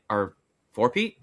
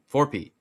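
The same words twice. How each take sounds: First: "four-peat?" rising like a question, unsure; questioning rise. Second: "Four-peat." higher and louder, firm falling tune; confident falling tune. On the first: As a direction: ask "four-peat?" with an upward lilt. Unsure, corrects himself mid-prediction. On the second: Confirms his own correction. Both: Real, not acted.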